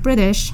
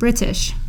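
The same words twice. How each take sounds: First: The word is said smoothly in the usual way. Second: The word is said with each syllable over-enunciated. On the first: "the normal way" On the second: "they might over-enunciate the word"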